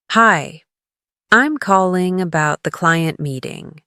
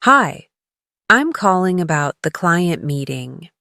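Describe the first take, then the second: No difference in how they are said.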